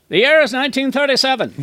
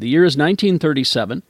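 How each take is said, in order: First: It is read in a 1930s newsreel announcer voice. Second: It is read in a plain, normal voice.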